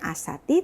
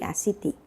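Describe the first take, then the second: First: The second vowel sounds like 'a'. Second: The second vowel sounds like 'i'. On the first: The speaker calls it wrong. "bukan asati" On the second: The speaker calls it right. "tapi asiti"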